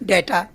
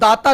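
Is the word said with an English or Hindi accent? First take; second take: English; Hindi. First: It is said with an English 'ay' vowel. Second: It is said with Hindi long 'aa' vowels.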